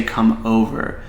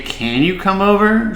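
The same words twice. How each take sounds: First: Flat falling statement, "Come over." said as a calm order; firm directive. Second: "Can you come over?" with a rising question tune, pitched higher; asking as a question. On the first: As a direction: state "Come over." plainly as a command, not asking. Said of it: "she needs to just say". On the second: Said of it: "If you say". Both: Shown as a demonstration.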